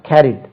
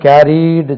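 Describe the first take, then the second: First: The word ends sharply on a final consonant. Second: The word ends with an extra final vowel. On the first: The speaker calls it right. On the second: The speaker calls it wrong.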